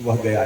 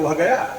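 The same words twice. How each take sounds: First: It is said as a plain, neutral statement. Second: It is said with a changed, emotional feeling.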